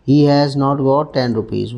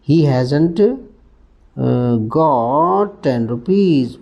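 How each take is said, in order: First: 'Has not' is said as two separate full words. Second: 'Has not' is squeezed into one contracted word. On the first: "पहला पूरा लिख लूँ" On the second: "उच्चारण देखो, हैज़न्ट"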